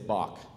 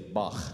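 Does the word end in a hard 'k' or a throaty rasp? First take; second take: hard k; throaty rasp. First: The word ends in a hard 'k' sound. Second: The word ends in a throaty rasping sound. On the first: The speaker calls it wrong. "if you're truly musically sophisticated, you don't say Bach" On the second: The speaker calls it right. "if you're truly musically sophisticated, you say Bach"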